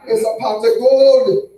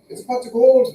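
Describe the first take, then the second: First: Loud, high, drawn-out mock Jamaican; big Jamaican shout, pitched up; Jamaican accent. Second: High, loud mock Irish; put-on Irish brogue, pitched up; Irish accent. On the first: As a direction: belt it out slowly in a Jamaican accent. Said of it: "Or the goddamn Jamaicans?". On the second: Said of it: "Is it the wee little Irish people?".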